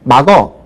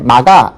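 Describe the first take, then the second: First: The word ends with an 'eo' vowel. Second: The word ends with an open 'a' vowel. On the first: The speaker calls it wrong. "요즘은 막어 이렇게 발음하는 경우들이 상당히 많아요" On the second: The speaker calls it right. "막아 이렇게 발음을 해야 되는데"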